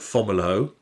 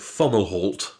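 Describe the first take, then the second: First: The final T is silent. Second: The final T is sounded. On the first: "I call it Fomalhaut" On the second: "but you call it Fomalhaut"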